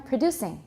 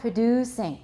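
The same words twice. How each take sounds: First: The vowel before the s is short. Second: The vowel before the s is long. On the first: The speaker calls it right. "We have to make it short to make sure that we hear the next sound as an S" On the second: The speaker calls it wrong. "Not producing. Then we'll hear a Z"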